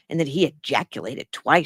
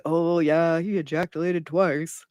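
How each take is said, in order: First: Said in the usual way. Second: Airy put-on voice mocking the quote; mock casual gossip. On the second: Host mocking how nobody would say this, airy put-on voice. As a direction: toss it off like idle chatter. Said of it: "Nobody's like".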